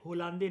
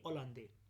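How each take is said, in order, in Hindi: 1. नाम की शुरुआत h ध्वनि से होती है। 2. नाम की शुरुआत स्वर ध्वनि से होती है। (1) "होलांदे नहीं" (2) "एच ना साइलेंट है इनके नाम में"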